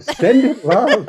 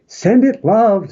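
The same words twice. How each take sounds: First: A giggly second blessing; laughing catchphrase. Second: Catchphrase blessing. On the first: To his co-host, giggling his signature send-off line. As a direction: repeat it with a laugh breaking in. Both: Shown as a demonstration. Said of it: "I wouldn't be me without saying".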